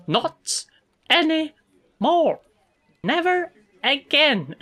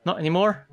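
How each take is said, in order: First: High, slow, word-by-word menace; scary finality. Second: Said in the usual way. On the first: Acted. Coworker assuring the teasing stopped, high slow menace. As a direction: spell it out slowly, high and threatening. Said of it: "She's quite scary, actually".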